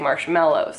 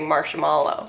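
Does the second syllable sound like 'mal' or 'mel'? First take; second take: mel; mal. First: The second syllable sounds like 'mel'. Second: The second syllable sounds like 'mal'. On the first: The speaker calls it right. "you say marshmallows" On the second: The speaker calls it wrong. "you don't say marshmallow"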